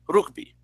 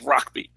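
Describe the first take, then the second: First: It is said with a Dominican Spanish pronunciation. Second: It is said with an English-style pronunciation.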